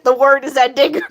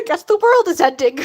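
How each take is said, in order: First: "word" said with no l, as "word is ending"; deliberate misread "the word is ending". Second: Said in the usual way. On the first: Shown as a demonstration. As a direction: read "word" where "world" belongs. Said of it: "Guess the world's ending". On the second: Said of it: "World's en".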